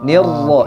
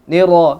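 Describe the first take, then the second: First: The r is doubled with a light trill. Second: The r is single, without doubling. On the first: The speaker calls it right. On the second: The speaker calls it wrong. "Jangan juga hilang. ... tidak ditasdidkan"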